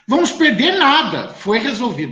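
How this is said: There is a pause after 'nada'. They will not lose anything; it was resolved. "a vírgula depois do nada"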